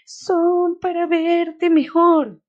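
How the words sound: It is read imitating the grandmother's voice.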